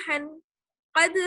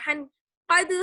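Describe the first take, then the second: The two takes are said the same way.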